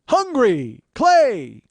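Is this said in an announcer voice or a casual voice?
announcer. It is said in a booming announcer voice. The speaker calls it wrong. "It doesn't sound good in P A announcer voice"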